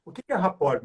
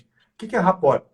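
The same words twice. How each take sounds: First: Said in the usual way. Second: Louder rhetorical repeat for the audience; emphatic repeat. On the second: Shown as a demonstration. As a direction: question thrown out louder, stress on é.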